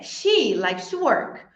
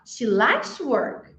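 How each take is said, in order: First: The word she carries the main stress. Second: The word likes carries the main stress. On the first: It is her, not someone else, who likes to work. "I thought it was who who likes to work" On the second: She enjoys it rather than being obliged to. "I thought he had to do that"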